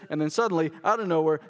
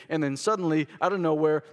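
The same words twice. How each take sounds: The two takes are said the same way.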